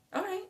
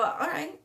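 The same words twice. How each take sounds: First: "all right" jumps much higher and softer. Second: Said in the usual way. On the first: Real, not acted. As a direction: squeak "all right" up high and quiet.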